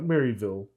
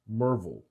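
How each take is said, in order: First: The name is said as Maryville. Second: The name is said as Merville. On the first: This is how outsiders say it. The speaker calls it wrong. "not Maryville" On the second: This is how the locals say it. The speaker calls it right. "that's how they pronounce it. Merville"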